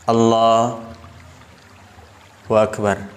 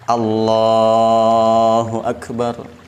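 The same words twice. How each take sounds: First: There is a pause between the two words. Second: The two words run together without pause. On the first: The speaker calls it wrong. "memutus lafaz Allahu Akbar" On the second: The speaker calls it right. "Harus nyambung"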